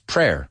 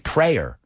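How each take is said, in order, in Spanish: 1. La vocal es distinta de la de pray. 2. La vocal suena como la de pray. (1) "It's prayer. ... Cambia el sonido vocal because I pray" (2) "We don't say prayer"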